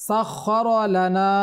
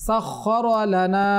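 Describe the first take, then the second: No difference in how they are said.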